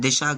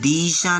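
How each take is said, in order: First: The first vowel is short. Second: The first vowel is drawn out long. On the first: The speaker calls it right. "ई की मात्रा कम समय के लिए" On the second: The speaker calls it wrong. "दिशा नहीं है"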